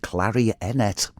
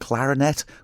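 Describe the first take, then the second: First: It is said the old Manx way. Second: It is said the everyday way.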